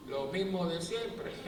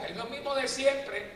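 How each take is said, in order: First: "Lo mismo de siempre" slow, rising on "siempre"; slow rising echo. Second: "lo mismo de siempre" said slow, falling on "de"; weary repeat. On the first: Priest echoing his own phrase, slow and rising. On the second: Priest mocking the endless warnings, slow and falling. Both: Shown as a demonstration.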